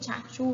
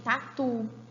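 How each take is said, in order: First: The t sounds are pronounced like ch. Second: Both t sounds are plain stops. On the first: The speaker calls it wrong. "A gente não tem tchachu" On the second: The speaker calls it right. "como tã e dã nos demais ambientes"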